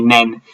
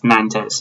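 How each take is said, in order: First: It is said like Nen, without an s. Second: It is said as spelled, ending in an s. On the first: The speaker calls it right. "I think it's F C Nen" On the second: The speaker calls it wrong. "I just say things how they're written"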